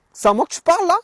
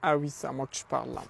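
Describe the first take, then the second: First: Higher, louder, jeering tough-guy challenge; hammed-up tough guy. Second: Said in the usual way. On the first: À un voleur qui lui demande son portefeuille, défi de caïd surjoué. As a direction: puff up and jeer the question like a street tough.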